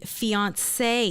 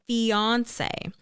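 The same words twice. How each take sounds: First: The stress is on the final syllable. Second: The stress is on the first syllable. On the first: "and final syllable" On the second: "with the stress on the first"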